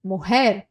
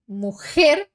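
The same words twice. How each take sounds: First: "mujer" with a soft breathed h for the J; only a light breath on the J of "mujer". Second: "mujer" with a hard rasped J like kh; strong J. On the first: Teacher contrasting strong and soft Spanish J. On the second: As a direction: push air hard through the J in "mujer". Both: Shown as a demonstration. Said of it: "Percebe a diferença?".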